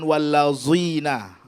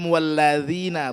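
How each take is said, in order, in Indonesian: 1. Huruf tengah itu bunyi 'z' yang berdengung. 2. Huruf tengah itu bunyi 'th' yang lembut.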